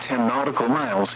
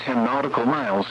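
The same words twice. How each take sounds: The two takes are said the same way.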